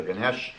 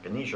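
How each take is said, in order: First: Ganesh ending on "sh", no final vowel; pronunciation variant. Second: Ganesh with a final "a", guh-NEE-shuh; pronunciation variant. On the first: Speaker offers the other pronunciation, Ganesh cut to two syllables. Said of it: "pronounced Ganesh or Ganesh". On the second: Speaker offers the elephant god's name, Ganesh said "guh-NEE-shuh". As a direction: say Ganesh as three syllables, ending in "shuh". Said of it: "I think it's pronounced". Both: Shown as a demonstration.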